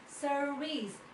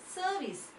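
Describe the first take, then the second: First: The R sound is clearly pronounced. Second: The R sound is silent. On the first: This is the American pronunciation. "They pronounce it as service" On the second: This is the British pronunciation. "we pronounce it as service"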